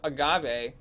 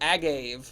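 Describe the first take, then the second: First: The ending does not sound like 'gave'. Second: The ending sounds like the word 'gave'. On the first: The speaker calls it right. "my fiance just told me it's called an agave" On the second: The speaker calls it wrong. "I thought it was agave. Like I gave it"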